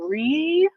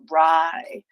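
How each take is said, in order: First: The vowel is a long 'ee' sound. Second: The vowel is an 'eye' sound. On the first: "are we saying re" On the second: "or are we saying rye? ... The second way, rye"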